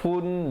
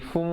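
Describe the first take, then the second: First: It ends with a clear n sound. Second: It ends with a light m sound. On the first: "bunyi nun" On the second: "bunyi mim yang nipis"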